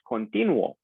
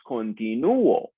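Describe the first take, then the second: First: The stress is on the syllable 'ti'. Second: The stress is on the syllable 'nu'. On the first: The speaker calls it wrong. "Because the stress would naturally be on the I" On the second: The speaker calls it right. "but it is pronounced continuo"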